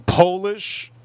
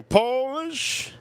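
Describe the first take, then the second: First: Said in the usual way. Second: Polish jumps way up into a thin squeak; squeaky high repeat. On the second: Acted. Squeaky repeat after "dang.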